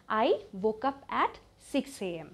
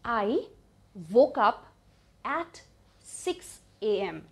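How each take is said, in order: First: Slow but connected, in one go; measured teaching delivery; joined-up model sentence. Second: Each word alone, long pauses between; very slow, spaced-out model; word-by-word dictation. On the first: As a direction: say the whole sentence evenly without long breaks. Same sentence joined up again. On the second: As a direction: break the sentence into separate pieces for learners. Teacher breaks sentence into single words. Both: Shown as a demonstration.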